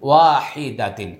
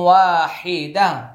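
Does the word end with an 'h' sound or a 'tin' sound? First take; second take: tin; h. First: The word ends in a full 'tin' syllable. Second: The word ends in a soft 'h' sound. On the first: The reading continues without stopping. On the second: The reader stops at this word.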